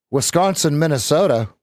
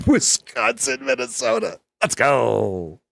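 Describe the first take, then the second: First: Put-on light Valley girl voice. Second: Put-on very high, slow Valley girl. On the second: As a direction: squeal it like a Valley girl, laughing. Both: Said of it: "Who was the Valley girl last week?".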